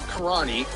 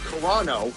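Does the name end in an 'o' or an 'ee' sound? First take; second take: 'ee' sound; 'o' sound. First: The name ends with an 'ee' sound. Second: The name ends with an 'oh' sound. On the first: The speaker calls it wrong. "you have any editors over there?" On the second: The speaker calls it right. "not Karani"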